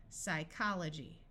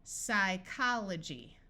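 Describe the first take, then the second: First: Said in the usual way. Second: Slow sounding out. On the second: Shown as a demonstration. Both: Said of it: "P S says s".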